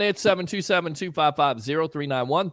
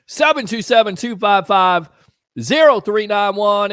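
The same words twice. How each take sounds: First: Said in the usual way. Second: Phone number louder and slow, every digit "Seven two seven two five five zero three nine one" pressed separately; slow, emphatic phone number. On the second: Shown as a demonstration. Host announcing the call-in number to listeners, slow and loud. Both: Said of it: "Open phone line".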